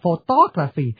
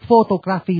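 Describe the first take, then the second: First: The second syllable is stressed. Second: The second syllable is not stressed. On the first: The speaker calls it right. "phải nhấn chữ tô" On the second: The speaker calls it wrong. "Quý vị mà đọc photography là không được"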